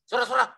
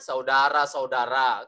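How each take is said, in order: First: The word is rushed and slurred together. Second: The word is said clearly and distinctly. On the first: The speaker calls it wrong. "ya kan enggak benar tuh" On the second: The speaker calls it right. "Yang benar kan"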